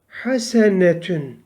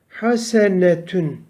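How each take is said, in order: No difference in how they are said.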